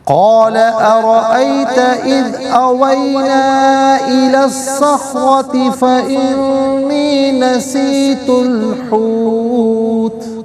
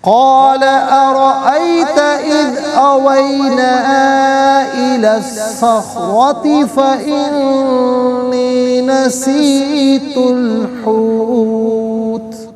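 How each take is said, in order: First: It is recited quickly with little lengthening. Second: It is recited at a moderate, in-between speed. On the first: This is how it is heard in the night prayers of Ramadan. "अब हम पढ़ेंगे नाज़रीन हदर के साथ, जैसे नमाज तरावी में" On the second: This is how it is heard in the obligatory prayers. "अब हम पढ़ेंगे तदवीर के साथ, जिस तरह फ़र्ज़ नमाज़ों में"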